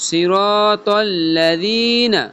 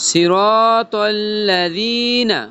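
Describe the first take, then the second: Both takes have the same delivery.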